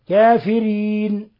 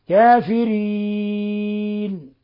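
First: The vowel before the final n is short. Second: The vowel before the final n is medium length. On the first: "القصر" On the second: "والتوسط"

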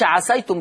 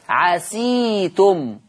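First: The s is followed by an a vowel. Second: The s is followed by an i vowel. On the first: The speaker calls it wrong. "ما يقولش عسيتم بفتح السين" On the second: The speaker calls it right. "ورش يقراها بكسر السين"

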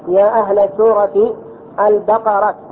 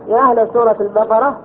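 First: The final word ends with a t sound. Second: The final word ends with an h sound. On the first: The speaker calls it wrong. "على خلاف الأفصح" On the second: The speaker calls it right. "الأفصح ماذا يقول؟"

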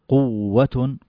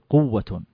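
First: The doubled consonant is split apart or held long. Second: The doubled consonant is said smoothly in one beat. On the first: The speaker calls it wrong. "لا تقول قوة" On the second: The speaker calls it right. "قل قوة"

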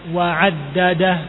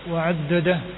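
First: The a vowels are said wide open. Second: The a vowels are said closed. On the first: The speaker calls it right. "fathahnya dibuka" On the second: The speaker calls it wrong. "Jangan ditutup, jangan wa'addadah"

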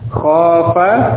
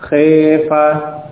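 First: The first vowel is an open a sound. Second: The first vowel is tilted toward an e sound.

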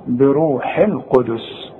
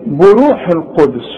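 First: The first syllable is said with an 'i' vowel. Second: The first syllable is said with a 'u' vowel. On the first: The speaker calls it right. "ما هي مكسورة" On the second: The speaker calls it wrong. "بو بو. طب عندك البه مكسورة ولا مفتوحة؟"

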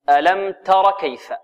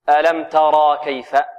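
First: The vowel after the r is short. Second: The vowel after the r is long. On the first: The speaker calls it right. "هنا تحذف الألف هذه" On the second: The speaker calls it wrong. "ولا نقول"

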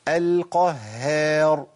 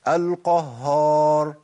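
First: The h sound is light, lips slightly smiling. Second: The h sound is heavy like the rest. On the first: The speaker calls it right. "في حاله ابتسامه بسيطه قوي، وهذه حاله ترقيق" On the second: The speaker calls it wrong. "بيثبت هيئه واحده وهي التفخيم"

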